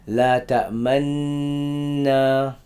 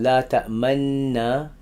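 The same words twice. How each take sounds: First: La ta'manna drawn out slowly with lips curled on the nun; rawm recitation. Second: Said in the usual way. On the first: Shown as a demonstration. Teacher demonstrates rawm by curling the lips on La ta'manna. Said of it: "You gotta curl your lips". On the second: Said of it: "instead of reciting".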